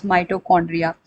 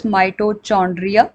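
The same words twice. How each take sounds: First: Mitochondria said as "my-toe-KON-dria". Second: Mitochondria said as "my-toe-CHON-dria"; "ch" as in church. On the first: Teacher showing students the other pronunciation, mitochondria with a k. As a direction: say mitochondria with a hard k sound. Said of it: "some people pronounce it as". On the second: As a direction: say mitochondria with a "ch" like chop. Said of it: "some people call this". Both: Shown as a demonstration.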